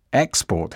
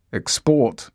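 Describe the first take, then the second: First: "Export" said EX-port, first syllable stressed. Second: "Export" said ex-PORT, second syllable stressed; stress on last syllable. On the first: Teacher showing the noun to learners, "Export" stressed on its first syllable. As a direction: put the weight on the EX of "Export". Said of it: "Stress on the first syllable". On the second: Teacher showing the verb to learners, "Export" stressed on its last syllable. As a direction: put the weight on the PORT of "Export". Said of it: "Stress on the last syllable". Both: Shown as a demonstration.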